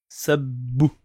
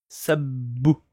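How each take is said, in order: No difference in how they are said.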